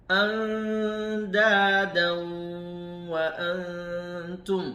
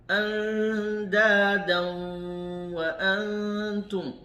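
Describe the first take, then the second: No difference in how they are said.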